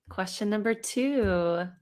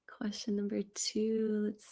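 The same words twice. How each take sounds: First: Said in the usual way. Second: Breathy whispered repeat to herself. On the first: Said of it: "repeats it in a whisper". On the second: Shown as a demonstration. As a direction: murmur it under the breath, just air. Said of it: "said plainly just before".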